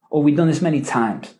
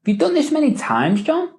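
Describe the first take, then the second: First: MANY TIMES falling at the end; quicker, downward tune closing on TIMES; command. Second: Rising questioning tune on MANY TIMES, John. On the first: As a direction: make it a command, dropping on TIMES. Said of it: "which is a command". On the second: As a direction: ask it, lifting the voice at the end. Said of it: "which is a question". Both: Shown as a demonstration.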